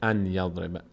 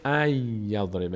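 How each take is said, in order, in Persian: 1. نون واضح تلفظ میشه: an yadriba. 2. نون به y تبدیل میشه: ay yadriba. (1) "نمیشه ان یضربه" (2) "میشه ای یضربه"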